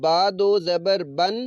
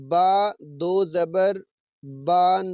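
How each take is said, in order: First: با دو زبر بن with بن short and crisp; correct short reading. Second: با دو زبر بان with the ا in بان stretched long; wrong long vowel. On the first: Teacher showing pupils the correct short بن. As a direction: clip بن short, no long ا. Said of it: "بلکہ با دو زبر بن ہی پڑھیں". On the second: Teacher showing pupils the wrong, stretched reading of بان. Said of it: "با کو لمبا کر دینا". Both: Shown as a demonstration.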